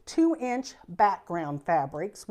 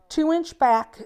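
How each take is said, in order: First: Said in the usual way. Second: Higher and louder, leaning on two; emphatic slip. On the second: Real, not acted. Teacher stating the strip size to viewers, higher and louder. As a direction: push the number out eagerly, then stop. Slip before correcting measurement.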